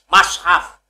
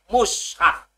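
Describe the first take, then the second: First: The first vowel is a. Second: The first vowel is u. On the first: "fathai mim" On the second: "dhamah mime"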